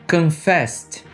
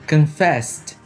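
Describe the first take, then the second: Both takes have the same delivery.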